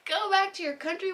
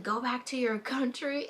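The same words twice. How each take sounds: First: Much higher, disbelieving repeat; incredulous. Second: Imitating a rude woman, lightly; a hint of a hostile lady; mild mock insult. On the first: Retold or imitated. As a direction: echo the insult in disbelief. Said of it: "I was like, "What?". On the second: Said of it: "She was all like".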